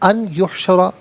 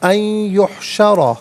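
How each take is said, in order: First: The n is said clearly without nasal merging. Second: The n merges nasally into the y sound. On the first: The speaker calls it wrong. "गलत है" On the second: The speaker calls it right. "या की आवाज़ को गुन्ने के साथ अदा किया जाएगा"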